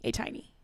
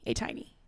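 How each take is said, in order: First: The middle syllable sounds like 'tie'. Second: The same.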